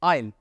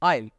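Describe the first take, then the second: Both takes have the same delivery.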